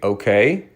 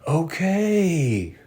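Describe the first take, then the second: First: It is said in an angry, resentful tone. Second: It is said in a friendly, sincere tone.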